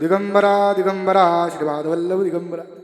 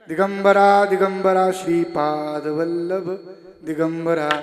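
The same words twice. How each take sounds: First: A breath is taken before a shortened Shri. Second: No breath is taken; the long Shri is kept.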